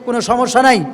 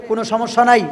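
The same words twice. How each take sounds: The two takes are said the same way.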